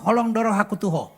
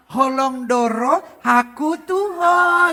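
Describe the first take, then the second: First: Blunt Batak way. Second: Slow, syrupy, sweetened Batak line; mock sweetened Batak love line; sweet drawn-out wrong way. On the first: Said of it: "Orang Batak kalau ngomong". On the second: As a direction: stretch it out sweetly, as if crooning. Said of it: "nggak bisa gini". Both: Shown as a demonstration.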